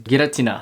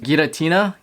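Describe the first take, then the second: First: The name is said with Japanese pronunciation. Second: The name is said with English pronunciation. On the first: "in Japanese, the way how you pronounce it is" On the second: "in English it's pronounced"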